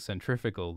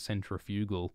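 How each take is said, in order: First: The word is pronounced in a smooth, flowing way. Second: The word is pronounced in an awkward, plodding way. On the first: The speaker calls it right. "I prefer saying centrifugal" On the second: The speaker calls it wrong. "Centrifugal sounds kind of awkward and plodding"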